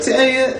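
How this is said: The voice is thin, from the neck.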